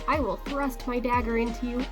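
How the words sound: It is spoken in an American accent. "Or in American"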